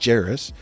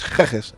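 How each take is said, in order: First: The name begins with a soft J sound. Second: The name begins with a hard G sound. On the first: "They'd say it was a, a, a J" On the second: "a hard G"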